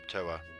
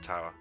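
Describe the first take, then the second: First: The first vowel sounds like 'oh'. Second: The first vowel sounds like 'ow'. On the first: The speaker calls it right. "Toa. Not Tower" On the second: The speaker calls it wrong. "Not Tower"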